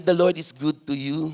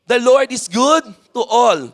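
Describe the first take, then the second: First: Lower, softer aside; telling a seatmate. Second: Raised, emphatic read-aloud for all to join; leading group reading. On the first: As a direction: say it softly as if to one neighbour. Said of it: "Tell to your seatmate". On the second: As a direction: lead the congregation in reading the verse. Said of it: "let us all read, one, two, three, go". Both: Shown as a demonstration.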